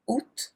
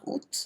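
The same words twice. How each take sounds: First: Août said as a single "oo" sound, with no t; French août. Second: Août repeated very softly as a single "oo"; French août repeated softly. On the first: Teacher models août as "oo" for students. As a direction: say août as "oo", not आउट. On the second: Teacher quietly repeats the correct août. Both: Shown as a demonstration. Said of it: "आउट नहीं बोलना".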